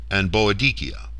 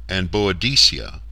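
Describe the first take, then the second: The two takes are said the same way.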